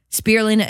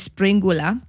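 First: Said in the usual way. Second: Springula, an N-G replacing the L of spirulina, R rolled; mistaken word form. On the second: Shown as a demonstration. Explaining the mental switch, springula said with rolled R. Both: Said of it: "that has switched in my mind".

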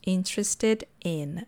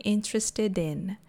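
First: "Interested in" said slowly, word by word; words separated. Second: "interested in" run together as one word; linked words. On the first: Teacher showing students the phrase "Interested in", slow and separated. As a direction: keep "in" apart after "Interested". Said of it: "É importante falar esse in depois". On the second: Teacher showing students how to connect "interested in", smoothly linked. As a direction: link the final d of "interested" onto "in". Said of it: "Aí eu conecto". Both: Shown as a demonstration.

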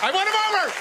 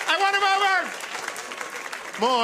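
First: High gleeful boast; triumphant. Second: Slow, high sing-song "I won him over"; drawn-out triumph. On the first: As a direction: crow it like a victory. Triumphant boast after crowd bit. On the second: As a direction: stretch every word to savour the win. Repeated, stretched boast. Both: Acted.

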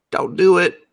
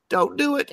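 First: Loud, high anguished plea; mock plea. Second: Very high, strangled squeak; tearful mock plea. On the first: Viewer pleading with the screen, loud mock anguish. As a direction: beg loudly, hammed-up. Pleading with character during an episode. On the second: Viewer begging the screen, squeaky mock tears. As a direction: plead as if about to cry, hammed-up.

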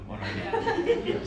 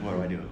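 First: High, slow, laughing repeat of the question; laughing panic. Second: Said in the usual way. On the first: Retold or imitated. Frozen at the gas pump, laughing in helpless panic. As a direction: crack up while asking it again.

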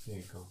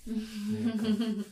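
First: Said in the usual way. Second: Put-on cooing baby voice. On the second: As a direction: coo it like comforting a child. Giving a hug, cooing.

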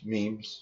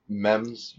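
First: "Memes" said as meemz, long ee; "Memes" with a long ee vowel, rhyming with "teams"; the meem pronunciation of "Memes"; pronunciation meemes. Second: "memes" said as mem-z, short e; "memes" with the short e vowel, like "gems"; the mem pronunciation of "memes". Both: Shown as a demonstration. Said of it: "Is it meme or mem?".

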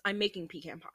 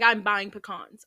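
First: Pecan said PEE-can, before pie; PEE-can pronunciation. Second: Pecans said puh-KAHNS; puh-KAHNS pronunciation. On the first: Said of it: "Like, I'm buying pecans". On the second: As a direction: give pecans an open "kahns" ending. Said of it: "I say pecans". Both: Shown as a demonstration.

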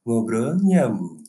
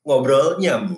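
First: Slow, drawn-out radio host voice; late-night radio host. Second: Slow, higher late-night radio voice; radio host voice. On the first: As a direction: say the name like a midnight DJ. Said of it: "penyiar radio tengah malam". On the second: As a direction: announce the show name slowly. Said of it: "pakai suara, penyiar radio tengah malam". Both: Shown as a demonstration.

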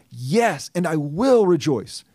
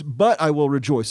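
First: Slow, emphatic stress on will; emphatic push. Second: But stressed, then I will rejoice runs on. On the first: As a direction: push hard on will, drawing it out. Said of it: "he's emphasizing, he's pushing it even more". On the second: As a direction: lean on But to mark a contrast. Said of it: "as a contrasting conjunction". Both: Shown as a demonstration.

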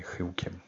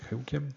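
First: Said in the usual way. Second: "Chyłkiem?" asked with a sharp high rise at the end; doubtful questioning rise. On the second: Real, not acted. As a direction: say "Chyłkiem?" as a puzzled question, pitch rising high. Doubting his own word choice.

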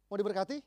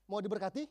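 No difference in how they are said.

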